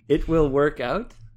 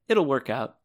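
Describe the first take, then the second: First: The words 'it will' are said as two full words. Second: The words 'it will' are contracted to 'it'll'. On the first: "The sentence is" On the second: "I'd say like this"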